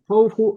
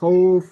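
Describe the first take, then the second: First: The word ends with a short 'u' vowel. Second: The word ends on a bare final consonant. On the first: The speaker calls it wrong. "এরকম হবে না" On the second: The speaker calls it right. "একবারে সাকিন"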